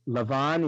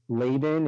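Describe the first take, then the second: First: The middle consonant is a v sound. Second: The middle consonant is a b sound. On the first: "in Hebrew" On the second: "in the English pronunciation"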